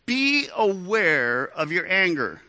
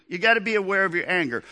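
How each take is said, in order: First: Slow and deliberate, each word weighed; measured preacher emphasis; slow emphatic teaching. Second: Fast, urgent repeat of the lesson; hurried preacher aside; quick restatement. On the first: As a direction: lay it down slowly like a key lesson. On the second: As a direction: rush it out as a follow-up. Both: Shown as a demonstration. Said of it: "Here's the first teaching moment".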